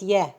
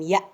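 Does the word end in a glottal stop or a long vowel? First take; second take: long vowel; glottal stop. First: It ends in a long vowel, no glottal stop. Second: It ends in a glottal stop. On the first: The speaker calls it wrong. "It's not Ya" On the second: The speaker calls it right. "Now it became Ya. Now because we have Hamza at the top"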